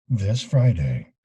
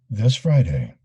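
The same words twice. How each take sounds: Both takes have the same delivery.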